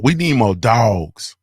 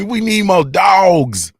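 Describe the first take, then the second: First: Said in the usual way. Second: Higher, louder, slow chant of dogs; rally the crowd with the slogan; hyped shout. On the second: Acted.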